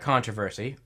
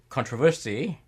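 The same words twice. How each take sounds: First: The word is said the American way. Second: The word is said the British way.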